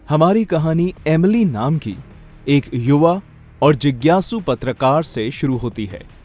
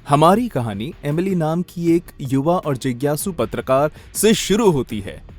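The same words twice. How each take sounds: First: The stress falls on the key words. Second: The stress falls on random words. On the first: The speaker calls it right. "जो होने चाहिए words stress के, उन्हीं पे stress देके" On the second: The speaker calls it wrong. "ऐरे गहरे शब्दों पर"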